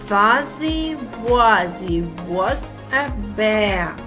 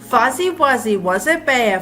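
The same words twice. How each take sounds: First: It is said slowly. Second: It is said fast.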